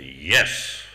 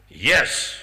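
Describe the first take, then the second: First: Low, stern imitation of the guru; imitated stern, low-pitched authority; really stern. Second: Playful imitation, louder and lifted; imitating a boyishly amused guru; smiling. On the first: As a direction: say it deep and severe, as a mock reprimand. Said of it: "he went really stern". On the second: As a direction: say it through a big smile. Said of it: "this big smile came on his face".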